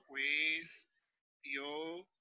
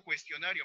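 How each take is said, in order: First: CUESTIONARIO split slowly: cues, tio, na, rio; very slow syllable division of "Cuestionario". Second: Said in the usual way. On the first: Shown as a demonstration. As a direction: say "Cuestionario" in stretched syllables with gaps. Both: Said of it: "De esa forma debiste separar".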